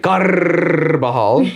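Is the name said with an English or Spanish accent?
Spanish. The name is said with a Spanish accent.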